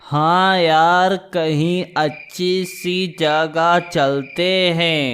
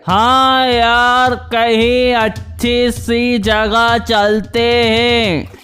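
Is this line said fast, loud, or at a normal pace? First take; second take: normal; loud. First: It is said slowly and quietly. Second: It is said louder but not faster.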